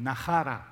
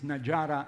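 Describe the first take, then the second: First: The middle consonant is a breathy h sound. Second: The middle consonant is a voiced j sound. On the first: The speaker calls it wrong. "according to the Spanish pronunciation" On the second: The speaker calls it right.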